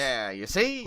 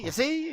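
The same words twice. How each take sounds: First: Said in the usual way. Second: Put-on high, quick old-timey "you see"; like a 1930s newsreel guy. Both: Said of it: "talk like this".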